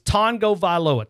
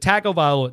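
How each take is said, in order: First: The g is nasal, like tongo. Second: The g is a hard g, like tag. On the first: The speaker calls it right. "the Polynesian culture doesn't pronounce the G the way that we do" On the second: The speaker calls it wrong. "everybody says it"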